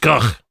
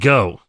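First: The name ends in an f sound. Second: The name ends in a plain vowel sound. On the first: This is the English pronunciation. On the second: This is the American pronunciation.

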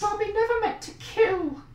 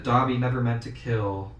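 First: It is said in an imitated Dobby voice. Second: It is said in his normal voice.

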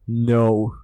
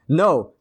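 First: It is said in a deep, booming voice. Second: It is said in an ordinary voice.

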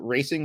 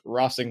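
First: The first vowel is an English 'ay' sound. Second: The first vowel is a Spanish 'ah' sound. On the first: The speaker calls it wrong. "what they would want us to call Racing Louisville" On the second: The speaker calls it right. "clearly has to be pronounced Rossing Louisville"

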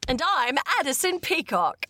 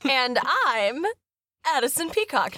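First: It is said in a put-on Cockney accent. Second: It is said in the speaker's normal accent.

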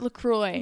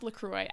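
First: The name has an American English pronunciation. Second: The name has a French pronunciation. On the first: The speaker calls it wrong. "It's Americans. They pronounce it La Croix" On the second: The speaker calls it right. "It's pronounced La Croix"

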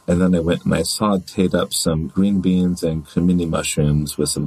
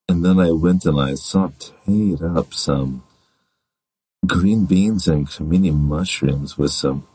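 First: It is said in an ordinary voice. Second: It is said in a deep, sexy voice.

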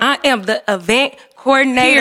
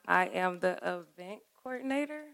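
First: It is said boldly, with confidence. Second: It is said plainly, without much confidence.

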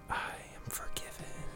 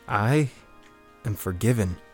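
First: It is whispered softly. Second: It is spoken aloud in a normal voice.

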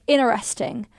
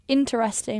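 First: Only one t sound is pronounced. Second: Both t sounds are pronounced. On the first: "why do you only pronounce one of the T's in that word?" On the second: "Why is it not interesting"

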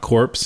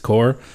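First: The word ends with a 'ps' sound. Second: The word ends without a 'ps' sound. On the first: The speaker calls it wrong. "it's not corpse" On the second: The speaker calls it right. "it's core"

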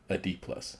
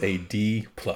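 First: It is said at normal volume. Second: It is said loudly.

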